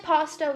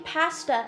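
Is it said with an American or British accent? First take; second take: American; British. First: It is said with an American accent. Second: It is said with a British accent.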